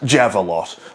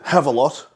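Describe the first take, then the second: First: The name begins with a J sound. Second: The name begins with an H sound. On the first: "like a javelin that's a lot" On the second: "pronounce your J's like H's"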